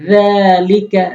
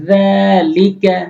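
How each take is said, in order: No difference in how they are said.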